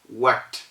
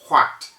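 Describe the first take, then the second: First: It begins with a plain w from the lips. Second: It begins with air blown from the throat. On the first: The speaker calls it right. "as if the spelling is just W A T" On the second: The speaker calls it wrong. "we do not say what"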